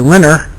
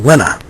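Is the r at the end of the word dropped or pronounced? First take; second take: pronounced; dropped. First: The final r sound is pronounced. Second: The final r sound is dropped.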